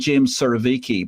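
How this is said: The surname has an American English pronunciation. "So in American"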